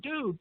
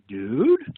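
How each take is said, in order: First: It sounds like a relaxed, friendly greeting. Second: It sounds like a question. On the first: The speaker is greeting someone. "If you were to say hello to somebody" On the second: The speaker is asking something. "if you were to ask a question"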